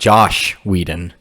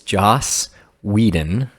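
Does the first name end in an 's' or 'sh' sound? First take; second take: sh; s. First: The first name ends with an 'sh' sound. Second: The first name ends with an 's' sound. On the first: The speaker calls it wrong. "not Josh Whedon" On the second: The speaker calls it right. "It's Joss Whedon"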